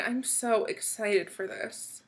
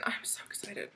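First: Said in the usual way. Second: Hushed giddy whisper; softly breathed excitement; excited whisper. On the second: Real, not acted. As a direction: whisper it to yourself. Quiet giddy aside.

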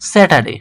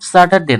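First: স্যাটারডে opening on "sæ", not "sa"; front-vowel Saturday. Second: Said in the usual way. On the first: Shown as a demonstration. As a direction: say স্যাটারডে as "sæ-ta-day". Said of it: "স্যাটারডের উচ্চারণ কি হবে". (স্যাটারডে-র শুরুতে "স্যা" উচ্চারণ) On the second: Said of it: "স্যাটারডে না".

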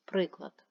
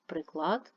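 First: Приклад with the weight on При-; stress on first syllable. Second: Приклад with the weight on -клад; stress on second syllable. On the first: Teacher naming a maths example, first-syllable stress on Приклад. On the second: Teacher naming part of a weapon, second-syllable stress on приклад. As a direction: lean on the end of приклад. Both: Shown as a demonstration. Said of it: "Наголос може змінювати значення".

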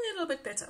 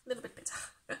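First: Said in the usual way. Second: Breathy whispered echo of the phrase; hushed whispered aside; whispered repeat. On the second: Shown as a demonstration. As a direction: whisper A little bit better to yourself.

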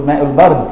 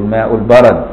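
First: البرد as "el-bard", no vowel after the ra; mistaken reading, silent ra. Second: البرد as "al-barad", with an open "a" after the ra; corrected, fatha on the ra. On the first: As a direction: misread البرد as one syllable, "bard". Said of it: "لان ممكن تقول". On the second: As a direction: read البرد correctly as "ba-rad". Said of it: "بفتح الراء". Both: Shown as a demonstration.

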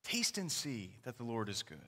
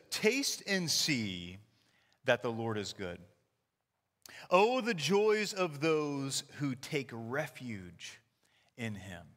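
First: Softer, lower echo of the verse; quiet reflective repeat. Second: Slow, deliberate reading of the verse; scripture reading. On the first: Pastor echoes the verse to the church, soft reflective repeat. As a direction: repeat it softly to let it sink in. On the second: Pastor reads Psalm to congregation, slow scripture reading. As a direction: read the psalm slowly, savoring each phrase. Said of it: "It says". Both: Shown as a demonstration.

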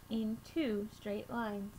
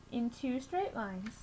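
Both takes have the same delivery.

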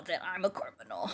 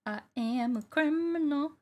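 First: Low, quick drop into a croak; low mock confession. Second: High mock confession. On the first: Player admitting to being a criminal, low mock confession. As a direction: say it low and fast. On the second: Player admitting to being a criminal, high mock confession. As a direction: lift it high and stretch it.

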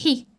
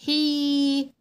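First: حي with a quick kasra; short i in حي. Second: حي with a long held vowel. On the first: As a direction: clip حي short. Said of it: "الكسرة حركة قصيرة". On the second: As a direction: stretch the ii of حي far out. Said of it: "المد بالياء حركة طويلة". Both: Shown as a demonstration.

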